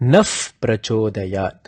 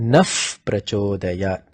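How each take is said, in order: First: The first word ends in a soft f sound. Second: The first word ends in a soft f sound.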